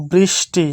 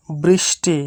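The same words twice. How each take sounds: The two takes are said the same way.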